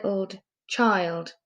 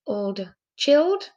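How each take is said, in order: First: Put-on "child" with the long i vowel, as in "mild". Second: "chilled" blended slowly with a short i, as in "chill"; wrong short i. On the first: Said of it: "Child is a word". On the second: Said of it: "Child is a word, chilled". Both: Shown as a demonstration.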